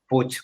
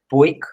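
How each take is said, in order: First: The name ends in a ch-like sound. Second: The name does not end in a ch-like sound. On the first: This is how the name is said in Catalan. The speaker calls it right. "como si acabase en C H. Así es como se pronuncia" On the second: This is how people in that country say it. The speaker calls it wrong. "sé que vosotros allí decís Puig o algo"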